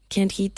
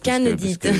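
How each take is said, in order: First: The name is said with English pronunciation. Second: The name is said with French pronunciation.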